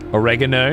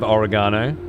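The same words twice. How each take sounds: First: It is said with an American pronunciation. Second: It is said with a non-American pronunciation. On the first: "feral American pronunciation" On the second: "instead of"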